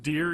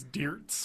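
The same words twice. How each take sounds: First: Said in the usual way. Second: "deerts" with "ts" tacked on the end; Ricky's mispronunciation. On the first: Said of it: "Instead of deer". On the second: Retold or imitated. Host explaining Ricky's word to co-host, "deerts" ending in ts. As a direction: say "deerts" as deer plus a final ts. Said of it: "he says deerts".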